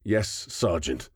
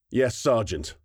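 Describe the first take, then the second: First: Through gritted teeth. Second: "Yes, Sergeant" a touch higher and flat, by the book; louder, flat. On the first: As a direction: hold back rage, spit out "Yes, Sergeant" slowly. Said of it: "through practically gritted teeth". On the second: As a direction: snap back "Yes, Sergeant" in a flat formal tone. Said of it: "her voice louder now, flat in tone". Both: A narrator's reading.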